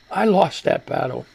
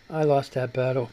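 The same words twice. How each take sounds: First: Said in the usual way. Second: "I lost that battle" said lower and softer, trailing off; resigned, softer. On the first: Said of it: "repeated line". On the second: Real, not acted. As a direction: let "I lost that battle" sink, giving up. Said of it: "repeated, softer".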